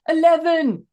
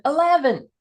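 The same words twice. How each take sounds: First: Put-on higher, louder shout in a Scottish accent. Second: Scot's put-on American accent, pitched high; attempted American accent. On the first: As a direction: shout it like a frustrated Scottish guy. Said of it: "they're, like, shouting at it". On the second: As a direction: try the word in an exaggerated American accent. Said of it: "they try an American accent".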